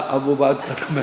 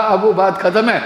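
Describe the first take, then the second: First: Imitating little brother's echo. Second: Higher, louder fed-up voice; retold exasperated insistence. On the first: Little brother repeating elder's words, toned-down echo. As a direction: repeat it back tamely, deadpan mimicry. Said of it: "बोला". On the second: Elder brother ending the game, raised exasperated voice. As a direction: insist loudly that the game is over.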